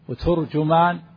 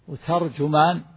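First: Both the t and the j take a u vowel. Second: The t takes a, the j takes u. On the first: "بضم التاء والجيم" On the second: "بفتح التاء وضم الجيم"

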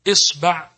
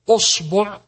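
First: The first vowel is i. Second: The first vowel is u. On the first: "بالكسر" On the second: "بالضم"

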